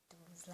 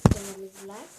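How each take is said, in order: First: Softer, low-key "Então, vamos lá"; quiet. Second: "Então, vamos lá" much louder, rising. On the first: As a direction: say "Então, vamos lá" almost to yourself. ("Então, vamos lá" baixinho) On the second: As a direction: call out "Então, vamos lá" brightly. ("Então, vamos lá" bem alto, subindo) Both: Real, not acted. Mesmo texto repetido.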